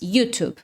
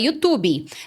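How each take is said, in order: First: The word has an English pronunciation. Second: The word has a Portuguese-adapted pronunciation. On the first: "A pronúncia em inglês" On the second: "aqui no Brasil, falando português, se você quiser, você pode falar YouTube"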